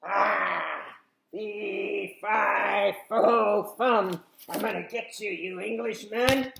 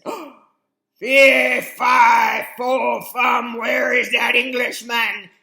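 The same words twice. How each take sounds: First: A growlier, beastly giant, louder; a new, beastlier giant voice, second try; better giant voice. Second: Higher, much louder, slow giant shout; an angry giant shouting, first try. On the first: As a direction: growl it like a weird bear. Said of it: "we could have a better giant, maybe". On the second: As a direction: bellow after the thief. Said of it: "the giant woke up and he said". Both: Acted.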